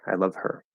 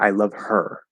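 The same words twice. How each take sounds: First: The word her is unstressed, with a light h. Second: The word her is stressed, with a stronger h. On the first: "I'm getting a little bit of that H there" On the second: "if I'm emphasizing her"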